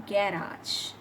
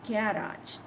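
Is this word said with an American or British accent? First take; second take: British; British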